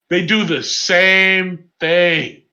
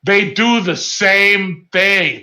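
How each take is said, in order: First: Drawn-out and heavy; even slower emphatic. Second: Slowed right down for emphasis; slow emphatic. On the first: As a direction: drag each word out. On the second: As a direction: spell it out slowly. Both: Real, not acted. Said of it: "Let me tell you something".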